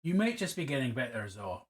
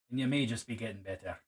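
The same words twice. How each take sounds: First: Put-on slipping into a light Scottish accent; a passing hint of Scottish accent, half by accident. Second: Said in the usual way. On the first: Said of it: "I just dropped into a Scottish accent". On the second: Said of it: "I don't know why I just dropped into a Scottish accent".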